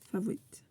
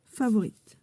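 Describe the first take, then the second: First: "Favorite" said softly in an English accent, the r dropped as /favoit/. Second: Said in the usual way. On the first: Shown as a demonstration. Joking about the card's English word, in an English accent. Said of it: "un accent anglais, euh, mémorable". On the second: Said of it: "un accent anglais".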